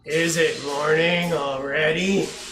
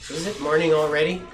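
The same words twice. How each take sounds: First: It is said in a groggy, sleepy voice. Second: It is read in a plain, alert voice. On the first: The speaker calls it right. "that's what my dad would have sounded like at some time early in the morning" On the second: The speaker calls it wrong. "he probably didn't say it that way"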